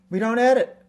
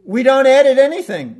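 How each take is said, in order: First: Said in the usual way. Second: EDIT punched high and loud; stress on EDIT. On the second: Shown as a demonstration. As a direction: hit the word edit hard and high. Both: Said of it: "very powerfully missing from the meditation is editing".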